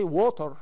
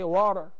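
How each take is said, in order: First: The word is said with a British accent. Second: The word is said with an American accent. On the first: "they don't say water like the English" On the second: "They say water"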